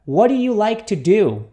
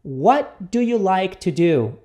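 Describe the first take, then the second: First: Joined-up, a bit less slow question; repeat-after-me model. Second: Slow, carefully spaced question; repeat-after-me model. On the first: Teacher has students repeat it, connected and measured. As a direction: say it firmly as one connected phrase. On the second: Teacher introduces the example question to students, slowly. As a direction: lay the words out for learners. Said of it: "Repita comigo". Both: Shown as a demonstration.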